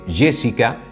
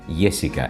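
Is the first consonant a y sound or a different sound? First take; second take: different; y. First: The first consonant is not a y sound. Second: The first consonant is a y sound. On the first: The speaker calls it wrong. "En lugar de" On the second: The speaker calls it right. "Otro de los fonemas del neutro es la Y"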